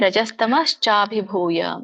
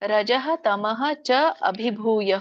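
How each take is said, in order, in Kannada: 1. ಪದಗಳು ಕೂಡಿ ಒಂದೇ ಸಲ ಹೇಳ್ತಾರೆ. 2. ಪ್ರತಿ ಪದವನ್ನು ತನ್ನ ಅಂತ್ಯದೊಂದಿಗೆ ಬೇರೆ ಬೇರೆಯಾಗಿ ಹೇಳ್ತಾರೆ. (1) "ಇದರ ಒಂದು ಉಚ್ಚಾರಣೆ" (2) "ಇದನ್ನ ಬಿಡಿಸಿದಾಗ"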